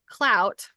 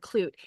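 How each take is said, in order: First: The vowel rhymes with 'out'. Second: The vowel rhymes with 'boot'. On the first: This is how the word is pronounced today. "that's how we pronounce it today" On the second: This may be the older pronunciation. "it might be clute"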